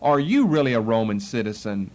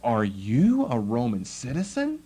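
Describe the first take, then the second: First: It sounds doubtful and disbelieving. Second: It sounds surprised and curious.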